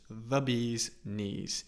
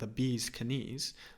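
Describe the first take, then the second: First: The K at the start of knees is silent. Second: The K at the start of knees is pronounced. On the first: The speaker calls it right. "but it's just the bees knees" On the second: The speaker calls it wrong. "we don't pronounce, so we don't say knees, although I do think that sounds pretty cool"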